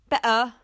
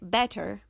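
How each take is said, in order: First: The middle consonant is a glottal stop. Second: The middle consonant is a clear t sound.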